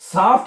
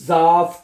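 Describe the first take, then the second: First: The word begins with an s sound. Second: The word begins with a z sound. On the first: The speaker calls it wrong. "ये इसको साफ्ट नहीं पढ़ना" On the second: The speaker calls it right. "एस जेड हो जाएगा"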